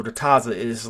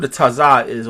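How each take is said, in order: First: Taza ending in a light "zuh"; taza, lower, with a weak last syllable; reduced final vowel. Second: Taza ending in a full "ah", ta-ZAH; taza, louder, with a clear final "zah"; open final vowel. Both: Shown as a demonstration. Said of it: "or the taza is".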